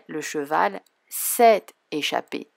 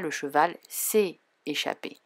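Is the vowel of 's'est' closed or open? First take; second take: open; closed. First: The word 's'est' has an open 'è' vowel. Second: The word 's'est' has a closed 'é' vowel. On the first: The speaker calls it right. "Je dirais" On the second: The speaker calls it wrong. "Je ne dis pas"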